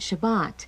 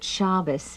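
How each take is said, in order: First: It is said in the Sephardic pronunciation. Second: It is said in an older, non-Sephardic pronunciation. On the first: This is how it is said today. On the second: This is how the grandmother's generation said it. "My grandmother called it"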